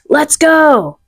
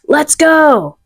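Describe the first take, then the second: First: It is said in an excited, energetic way. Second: It is said in an excited, energetic way.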